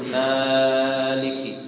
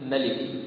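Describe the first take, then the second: First: The first vowel is stretched well beyond two counts. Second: The first vowel is cut short. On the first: "أو لا يزيدها كذلك" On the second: "بقصر الألف يعني أو حذفها"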